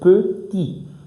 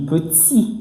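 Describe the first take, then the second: First: The t is light and soft without hissing. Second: The t is pressed hard with a hissing sound. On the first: The speaker calls it right. "Il faut éviter tout de sifflement" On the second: The speaker calls it wrong. "il y a ce qu'on appelle le sifflement. On pèse beaucoup sur le T et le D"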